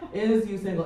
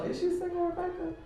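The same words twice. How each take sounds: First: Said in the usual way. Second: Much higher, softer mimic of the man; high mocking voice. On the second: Mocking the man who asked if she was single, high squeaky mimicry. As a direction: squeak the question back like a tease.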